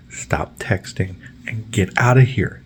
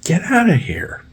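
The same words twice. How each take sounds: First: Said in the usual way. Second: High unvoiced hissed whisper; slow whispered order. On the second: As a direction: whisper it sharply. Telling him off again.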